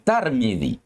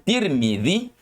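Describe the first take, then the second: First: The first syllable has the vowel a. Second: The first syllable has the vowel i. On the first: The speaker calls it wrong. "tetapi tidak dibaca dengan dengan Tarmidzi" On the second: The speaker calls it right. "boleh dibaca dengan Tirmidzi"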